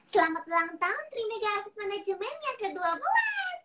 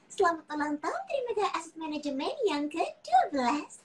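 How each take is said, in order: First: It is said in a small child's voice. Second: It is said in a sweet princess-like voice. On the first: "Versi pertama. Baby Lala" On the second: "Barbie, ini dia Princess Sophia"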